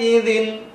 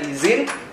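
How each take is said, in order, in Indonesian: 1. Konsonan di tengahnya adalah bunyi dh. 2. Konsonan di tengahnya adalah bunyi z biasa. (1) "Saya ulangi ya" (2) "mengganti bacanya menjadi wujuhu yauma izin ... bisa-bisa artinya berubah"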